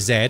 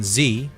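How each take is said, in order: First: The letter is named the Canadian way. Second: The letter is named the American way. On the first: "you say Z like I would" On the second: "instead of saying Z"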